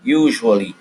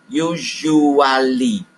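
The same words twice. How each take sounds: First: Said in the usual way. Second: "usually" drawn out as yu-zhu-a-lee; very slow teaching model of "usually"; four clear syllables. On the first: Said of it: "is pronounced". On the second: Shown as a demonstration. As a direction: stretch "usually" slowly, giving all four syllables. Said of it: "four very clear symb-, syllables".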